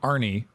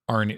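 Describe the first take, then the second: First: The name ends in a clear ee sound. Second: The name ends in a short, weak e sound. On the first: "the anglicized spelling" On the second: "the actual Scandinavian name"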